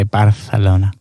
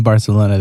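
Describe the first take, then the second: First: "Barcelona" as Bar-the-lona; local Spanish pronunciation. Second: Said in the usual way. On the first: Shown as a demonstration. Podcaster showing how locals say it, "Barcelona" with th. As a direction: say "Barcelona" with the c turned into th. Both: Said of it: "they say Barcelona".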